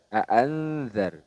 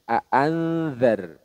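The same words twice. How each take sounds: Both takes have the same delivery.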